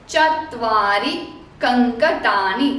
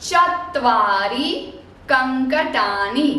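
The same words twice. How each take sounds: No difference in how they are said.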